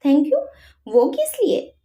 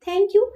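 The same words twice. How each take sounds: First: Higher, puzzled echo of the thanks. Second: Said in the usual way. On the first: A narrator's reading. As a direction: ask back, genuinely confused. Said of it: "जय ने असमंजस से पूछा". (उलझन भरा सवाल) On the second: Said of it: "खामोशी को तोड़ते हुए कहा".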